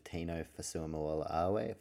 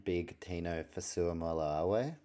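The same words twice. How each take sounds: First: First stab at "Fasuamoa-Awe", drawn out slowly; tricky name attempt. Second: Second go at "Fasuamoa-Awe", slow with rising end; careful retry of name. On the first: Host attempting the tricky surname "Fasuamoa-Awe", slow and unsure. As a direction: feel your way slowly through "Fasuamoa-Awe". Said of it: "that's a tricky one, isn't it?". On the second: Host retrying the tricky player name "Fasuamoa-Awe", slow and careful. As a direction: sound out "Fasuamoa-Awe" slowly, lifting at the end. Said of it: "Let me try again". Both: Real, not acted.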